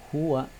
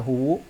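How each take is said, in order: First: The word ends in an a vowel. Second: The word ends in a u vowel. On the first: The speaker calls it right. "maka bacaannya tetap huwa" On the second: The speaker calls it wrong. "Tidak boleh dibaca huwu"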